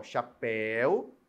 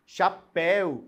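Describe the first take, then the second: First: "chapéu" slowly, ending drawn out; lower, stretched final "éu" in "chapéu"; stressed ending. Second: Said in the usual way. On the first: Shown as a demonstration. Teacher showing students the ending, stressed and slow. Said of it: "eu tenho a terminação el".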